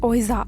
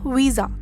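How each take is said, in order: First: It starts with 'oh' and ends with 'ja'. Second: It starts with 'vee' and ends with 'ja'. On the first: "మనమైతే ఓయిజా అని pronounce చేస్తాం" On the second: "లేదా వీజా అని pronounce చేస్తాం"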